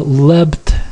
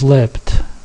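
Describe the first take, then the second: First: The consonant before the t is a voiced b. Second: The consonant before the t is a voiceless p. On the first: The speaker calls it wrong. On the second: The speaker calls it right.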